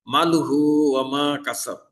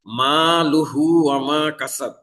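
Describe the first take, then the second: First: মা clipped short, no madd; মা লুহু ওয়া মা কাসাব with মা cut short; wrong short vowel. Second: মা with the alif madd held long; মা লুহু ওয়া মা কাসাব with মা lengthened; correct long vowel. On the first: Teacher shows students the wrongly shortened vowel. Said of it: "আলিফ মাদ না করে যদি হরকতের মতো". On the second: Teacher recites the correct madd for students, held vowel. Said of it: "মিমের উপরে আলিফ মাদ আছে". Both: Shown as a demonstration.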